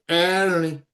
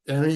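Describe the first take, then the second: First: The word is stressed and drawn out. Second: The word is said short, without dragging. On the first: This is the feminine form. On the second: This is the masculine form.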